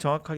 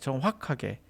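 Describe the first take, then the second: First: The middle sounds are reduced and run together. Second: Every syllable is articulated fully and clearly. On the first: This is how people normally say it. "우리는 그냥 정확하게 이렇게 해요" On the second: This is how an announcer would say it. "확 들어가야 돼"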